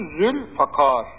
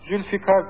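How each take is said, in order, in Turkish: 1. f sesinden sonraki ünlü 'a', k kalın. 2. f sesinden sonraki ünlü 'i', k ince. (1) "Doğru telaffuzu Zülfakar. ... F harfinden sonra i gelmiyor, a geliyor" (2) "Zülfikar deniliyor, ... Hatta kefmiş gibi yanlış"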